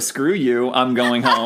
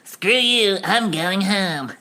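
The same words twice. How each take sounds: First: It is said in a plain, ordinary voice. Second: It is said in a put-on character voice.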